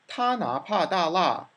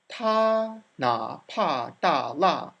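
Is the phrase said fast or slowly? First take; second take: fast; slowly. First: The phrase is said quickly. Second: The phrase is said slowly and carefully. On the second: "Careful of your tones"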